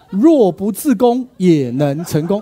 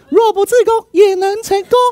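First: The voice sounds like the normal voice. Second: The voice sounds changed from the normal voice. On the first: The speaker calls it wrong. "不对" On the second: The speaker calls it right. "所以声音变了"

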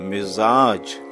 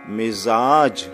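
The two takes are said the same way.

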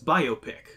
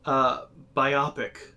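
First: The stress is on the first syllable. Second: The stress is on the second syllable. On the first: It means a biographical picture. The speaker calls it right. "It's biopic" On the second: It would mean having a dual vision. The speaker calls it wrong. "Biopic would be the secondary version of myopic"

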